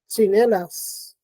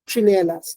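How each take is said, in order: First: It begins with a ts sound. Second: It begins with a ch sound. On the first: "starts out as a t, but is released as a s" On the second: "It's being replaced by ch"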